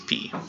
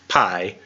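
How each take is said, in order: First: The word is said the older scholarly way. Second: The word is said the common modern way. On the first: "but the Erasmian Greek is p" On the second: "what you usually hear in a math class is modern Greek. So they say pi"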